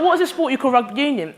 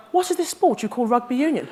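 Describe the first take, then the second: First: Redone in her own North London voice, laughing; North London accent. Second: Mock posh English accent, lightly done. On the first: Retold or imitated. [name] redoes her question as a North London kid, laughing. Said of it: "You don't have that accent there". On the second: [name] mimics posh schoolgirl asking teacher, mock posh accent. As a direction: ask it like a posh English lady. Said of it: "Not in that posh accent".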